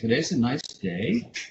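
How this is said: The pitch rises at the end. "up inflection is when you say ... This is what's called up talk"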